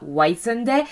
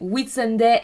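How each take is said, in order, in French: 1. La première syllabe se prononce comme le mot 'white'. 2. La première syllabe a une voyelle courte, comme dans 'wit'. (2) "bien prononcer Whitsunday"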